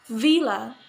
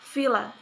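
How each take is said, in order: First: The word begins with a voiced v sound. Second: The word begins with a voiceless f sound.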